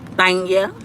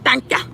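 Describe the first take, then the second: First: It is said in her own normal voice. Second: It imitates the little boy's way of saying it.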